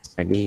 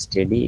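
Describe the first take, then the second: First: "Study", first vowel a short "uh", drawn out slowly; pronunciation of study. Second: "Steady", first vowel an open "e"; pronunciation of steady. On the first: Teacher showing students how study is pronounced, careful demonstration of "Study". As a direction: say "Study" with an "uh" as in cup. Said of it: "Study is pronounced". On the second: Teacher showing students how steady is pronounced, careful demonstration of "Steady". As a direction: say "Steady" with an "e" as in bed. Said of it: "is pronounced as". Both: Shown as a demonstration.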